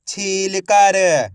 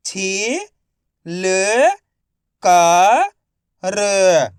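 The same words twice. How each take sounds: First: Said in the usual way. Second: छीलकर drawn out slowly, छी-ल-कर; slow syllable by syllable. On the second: Shown as a demonstration. (धीरे-धीरे अक्षर-अक्षर बोलें)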